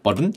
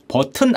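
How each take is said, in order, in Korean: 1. 버터처럼 부드러운 미국식 소리로 말했어요. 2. 한국식 음절로 평평하게 말했어요. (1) "이거 좀 더 버터를 바르는 게 있어요" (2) "버튼 아니죠?"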